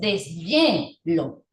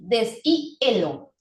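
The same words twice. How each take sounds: First: The h sounds like a consonant y. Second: The h is silent, a plain vowel follows. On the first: The speaker calls it right. "sino que dices deshielo" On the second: The speaker calls it wrong. "Si fuese muda, entonces tu palabra se pronunciaría así"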